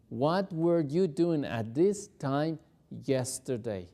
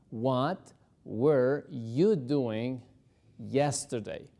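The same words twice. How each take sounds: First: Steady, slow, clear; slow full model sentence; slow whole question. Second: Word by word, very drawn out; slow chunked drill; slow broken drill. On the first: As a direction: say it whole, slowly. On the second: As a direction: break it apart slowly for learners. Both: Shown as a demonstration. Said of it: "El verbo were lo tenemos en pasado".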